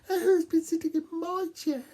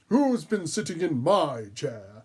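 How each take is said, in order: First: It is said in a tiny little voice. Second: It is said in a gruff, growling voice.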